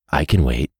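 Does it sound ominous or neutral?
ominous. It is said in an ominous, threatening voice.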